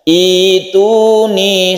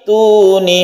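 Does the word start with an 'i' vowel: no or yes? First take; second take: yes; no. First: The word starts fresh with an 'i' vowel. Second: The word is linked on with no initial vowel. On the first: The reading starts again after a stop. "Kalau kita memulainya dari sini maka membacanya itu ituni" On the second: The reading continues from the previous word. "Kalau terus fis samawati tuni"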